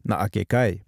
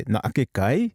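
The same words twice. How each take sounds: First: "Na'ake kai" falling on "kai"; falling statement tune. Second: "Na'ake kai?" going up on "kai"; inquisitive rising voice. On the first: Teacher shows that this is a statement, falling tune. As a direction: say it as a fact, "kai" dropping. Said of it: "this is a statement". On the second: Teacher shows what makes a question, voice going up. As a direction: make it a question by lifting "kai". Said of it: "My voice is going up". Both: Shown as a demonstration.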